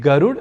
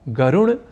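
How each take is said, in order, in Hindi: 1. 'garu' के बाद का व्यंजन एक मूर्धन्य स्पर्श है। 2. 'garu' के बाद का व्यंजन एक मूर्धन्य नासिक्य है। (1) "गरुड़ या गरुड़ह को" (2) "ड को ड़ या ण इस रूप में बोलना ... अशुद्ध"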